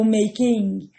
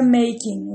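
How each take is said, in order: First: "making" slowly split as make-ee-ing; odd pronunciation. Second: "making" in two syllables, MA-king; correct pronunciation. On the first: Teacher shows students a weird form, odd pronunciation of "making". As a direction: stretch "making" with an extra vowel before -ing. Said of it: "ia ficar bem esquisito". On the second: Teacher gives students the right form, "making" said as two smooth syllables. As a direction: run "making" together with no extra vowel. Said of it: "Então fica making". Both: Shown as a demonstration.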